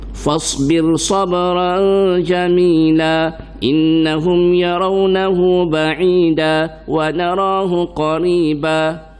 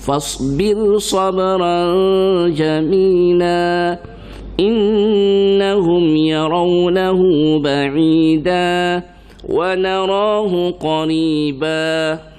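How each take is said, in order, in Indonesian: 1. Vokal panjang dibaca terburu-buru dan dipendekkan. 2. Vokal panjang ditahan sepenuh panjangnya. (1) "Salah tu, tak cukup" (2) "dia kena baca letak letak letak letak, jangan rembah"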